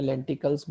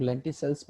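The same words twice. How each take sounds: First: लेंटिकल्स with a hard k sound; लेंटिकल्स, k in place of the s sound; variant pronunciation. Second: लेंटिसल्स with a soft s sound; लेंटिसल्स, s in place of the k sound; variant pronunciation. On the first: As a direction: say लेंटिकल्स with "-kals" at the end. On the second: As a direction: say लेंटिसल्स with "-sals" at the end. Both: Shown as a demonstration. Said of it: "सबके अपने अपने pronunciation होते हैं".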